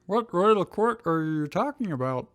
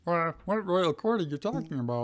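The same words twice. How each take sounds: First: High, lightly puzzled Drew. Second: High, puzzled Drew read again; puzzled Drew retake. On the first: Drew asking Ash about the royal court, puzzled. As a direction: sound baffled by the term. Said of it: "looking puzzled". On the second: Drew re-asking Ash about the royal court, puzzled. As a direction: redo the line with the same baffled lift. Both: Acted.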